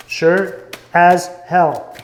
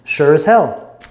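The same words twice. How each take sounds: First: Very slow, every word drawn out; slow emphatic. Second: Said in the usual way. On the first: Shown as a demonstration. Repeating it to the listener, slow and emphatic. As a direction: lean into it word by word. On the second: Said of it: "They felt".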